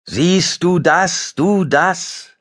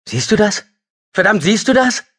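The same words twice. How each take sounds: First: Slow, higher, far-off echo; like the mountains calling it back. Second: Much higher, voice cracking hysterically; half-mad hysterical cry of relief. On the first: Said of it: "hallte es". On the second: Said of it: "Er lachte hysterisch. Seine Stimme überschlug sich". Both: Acted.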